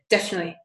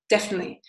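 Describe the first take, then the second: First: Some syllables of the word are dropped. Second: Some syllables of the word are dropped.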